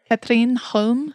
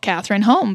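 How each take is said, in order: First: The name is said with a Scandinavian pronunciation. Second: The name is said with an American pronunciation. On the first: The speaker calls it right. "to my English ears, sounds spot on" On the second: The speaker calls it wrong. "I have always called Catherine Holm because mm-hmm. I am American"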